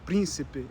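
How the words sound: The unstressed vowels are shortened and weakened. This is how it is said in Portugal. "but príncipe in Portugal"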